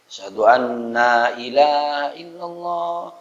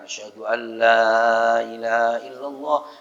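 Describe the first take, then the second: First: It is lengthened to 'anna' with no 'la'. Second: A short 'an' is followed by 'la'. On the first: The speaker calls it wrong. "Nanya panjang. Itu salah" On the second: The speaker calls it right. "asyhadu an betul"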